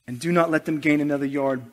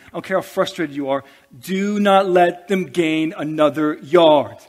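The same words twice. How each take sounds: First: Said in the usual way. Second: Coach's rallying shout. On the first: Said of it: "calmer restatement after the shout". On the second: Retold or imitated. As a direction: bellow it like a coach in the huddle. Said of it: "he's saying".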